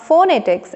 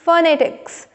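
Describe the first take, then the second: First: The first vowel is a full 'o' sound. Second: The first vowel is a reduced, weak sound. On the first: The speaker calls it wrong. "ओ is there but it is not फोनेटिक्स" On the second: The speaker calls it right. "It is फोनेटिक्स"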